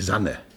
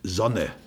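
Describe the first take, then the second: First: The first vowel sounds like 'a'. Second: The first vowel sounds like 'o'. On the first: This is the other planet's form. The speaker calls it wrong. "und nicht Sanne" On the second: This is the speaker's home form. The speaker calls it right.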